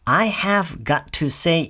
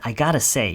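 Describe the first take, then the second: First: Every word is pronounced fully and separately. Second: The words blend together into a reduced form. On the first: "I have got to say 이지만" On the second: "회화체에서는 얘기 발음을 할 때는 그냥 I gotta say 이렇게 보통 얘기를 해요"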